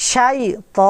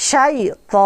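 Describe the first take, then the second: Both takes have the same delivery.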